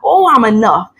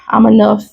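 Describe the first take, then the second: First: It is said with energy and feeling. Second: It is said flatly, without feeling.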